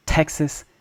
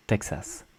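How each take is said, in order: First: Texas higher, as T-HEK-sus; breath burst on the T of Texas; hard English T. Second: Texas softly as tek-SAS; gentle T without air in Texas; soft French T. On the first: Teacher contrasts once more, aspirated English Texas. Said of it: "focus on the pronunciation of T E". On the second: Teacher contrasts once more, soft French Texas. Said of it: "a lot softer with consonant sounds". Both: Shown as a demonstration.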